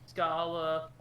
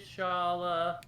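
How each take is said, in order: First: The name begins with an sk sound. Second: The name begins with an sh sound. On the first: This is how the name's owner says it. "Scala Kitty says Scala" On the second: This is how the speaker always said it. "I always pronounced it Shala"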